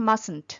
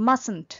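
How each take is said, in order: The two takes are said the same way.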